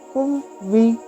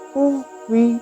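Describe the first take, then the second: The two takes are said the same way.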